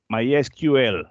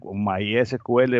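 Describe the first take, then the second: First: The whole name uses English letter names. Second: My is English; S-Q-L uses Spanish letter names. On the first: "mucha gente lo dice My, MySQL para re- respetar la pronunciación de, en inglés" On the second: "yo lo leo en español, mi S, MySQL, bueno, en Spanglish, porque el My es inglés, S Q L es español"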